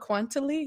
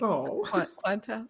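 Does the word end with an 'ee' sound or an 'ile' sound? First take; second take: ee; ile. First: The word ends with an extra 'ee' sound. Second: The word ends with an 'ile' sound. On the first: The speaker calls it wrong. "quantily was the way that I was pronouncing it" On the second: The speaker calls it right. "It was like, quantile"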